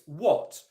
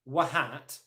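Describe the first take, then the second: First: No h sound or extra vowel is pronounced. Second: An h sound and extra vowel are pronounced. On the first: The speaker calls it right. "It's what" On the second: The speaker calls it wrong. "it's not pronounced wahat"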